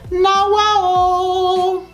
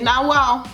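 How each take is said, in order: First: The vowels are long and drawn out. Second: The vowels are short and clipped.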